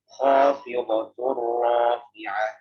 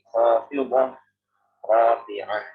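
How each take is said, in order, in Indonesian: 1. Kedua kata itu menyambung tanpa jeda. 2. Ada jeda yang memisahkan kedua kata itu. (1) "Kalau misalnya disambung ... Jadi bacanya khafidhatur rafi'ah" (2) "kalau misalnya kita mau mewakaf, jadi kita memisah"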